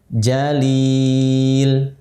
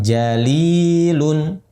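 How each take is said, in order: First: The long vowel is held longer, ending abruptly. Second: The long vowel is short, ending in 'un'. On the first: The reader stops on this word. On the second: The word is joined to what follows.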